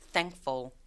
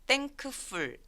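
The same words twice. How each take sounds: First: The middle K sound is left out. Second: The middle K sound is clearly pronounced. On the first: The speaker calls it right. "중간에 있는 K가 사라져서" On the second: The speaker calls it wrong. "thankful 아니고"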